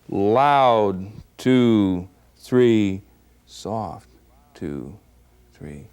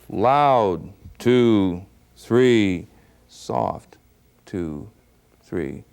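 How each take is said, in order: No difference in how they are said.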